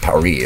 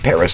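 First: Paris is said the French way. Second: Paris is said the English way. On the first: This is the name the city uses for itself. "not Paris" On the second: This is the name Americans use for the city. "we say Paris"

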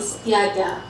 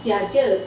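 First: The word is pronounced in a careful, formal way. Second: The word is pronounced in a casual, informal way. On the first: It suits formal use. "That's the formal Malay pronunciation" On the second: It suits informal use. "Informal one is tiada"

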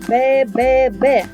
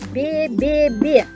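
First: The b sound is hard, not softened. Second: The b sound is soft, palatalized. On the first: "твердо" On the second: "м'яко"

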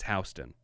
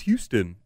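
First: It is said the way New Yorkers say the street. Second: It is said the way the Texas city is. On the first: The speaker is a local New Yorker. The speaker calls it right. "no, it's Houston. ... just like how they pronounce it in Georgia" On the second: The speaker is not from New York. The speaker calls it wrong. "if you're not from New York, people are like, where's Houston?"

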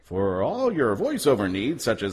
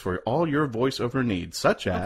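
First: It is said in an announcer voice. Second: It is said in his normal voice.

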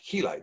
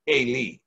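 First: The name begins with an h sound. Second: The name begins with a vowel sound. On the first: This is the form found in English texts. The speaker calls it wrong. "when you read in most of your English text, you're going to read the son of Heli" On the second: This is the original Hebrew form. The speaker calls it right. "the true Hebrew expression for that name is Eli"

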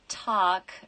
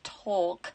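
First: The word is said in a non-British accent. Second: The word is said in a British accent. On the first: This is how the speaker naturally sounds. "if I say" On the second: This is what British listeners can understand. "instead of"

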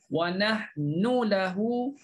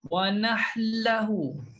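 First: The n is pronounced clearly before the l. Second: The n disappears and merges into the l.

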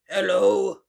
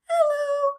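First: It is said in a low voice. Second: It is said in a high voice.

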